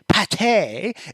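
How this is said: The word is said in a posh, refined way. Saying it this way makes you sound upper-class. The speaker calls it right. "it makes you sound real posh like"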